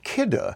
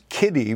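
First: The name ends without an ee sound. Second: The name ends in an ee sound. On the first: The speaker calls it right. "But it's pronounced KIDDE" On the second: The speaker calls it wrong. "we might always pronounce as Kiddy"

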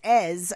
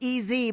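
First: The name is said as one short syllable. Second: The name is said as two letters. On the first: The speaker calls it right. "but it's Ez" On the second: The speaker calls it wrong. "I went with the initials of EZ"

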